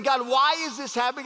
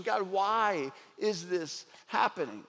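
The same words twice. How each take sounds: First: A touch of pleading protest, slightly raised; mild lament. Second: Softer, lower and slow, almost to himself; hushed questioning. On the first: Preacher voicing a lament poem's protest, mild pleading. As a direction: ask God why, gently pleading. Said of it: "It's saying". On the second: Preacher voicing Lamentations' question to God, hushed and slow. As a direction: let the question sink, quiet and heavy. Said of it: "The entire book is questioning". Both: Retold or imitated.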